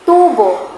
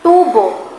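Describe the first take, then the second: No difference in how they are said.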